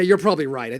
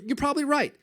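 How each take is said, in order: First: It is said in a sarcastic, passive-aggressive tone. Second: It is said in a sincere, agreeable tone. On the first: The speaker does not really agree with the listener. The speaker calls it wrong. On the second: The speaker genuinely agrees with the listener. The speaker calls it right.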